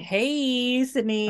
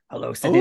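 First: It is said in a higher, flamboyant voice. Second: It is said in a lower, menacing voice.

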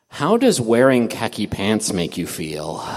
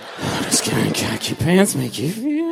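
First: It is read in a plain voice. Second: It is read in a breathy voice.

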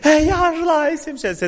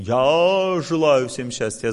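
First: It is said with strong emotion. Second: It is said in a plain, thinking tone.

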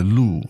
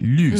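First: The vowel is a plain back u sound. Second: The vowel is a rounded front ü sound. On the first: The speaker calls it wrong. "as opposed to 绿" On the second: The speaker calls it right. "That 绿 sound"

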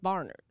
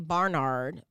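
First: It is pronounced the way locals say it. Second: It is pronounced the way outsiders say it. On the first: People from Savannah say it this way. The speaker calls it right. "but it's Barnard" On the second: People from other regions say it this way. The speaker calls it wrong. "some people say Barnard"

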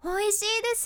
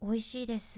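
First: It is said brightly with high energy. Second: It is said flatly with low energy.

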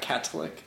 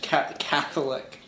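First: The middle consonant is a 't' sound. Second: The middle consonant is a 'th' sound. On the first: The speaker calls it wrong. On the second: The speaker calls it right. "So you pronounce the TH"

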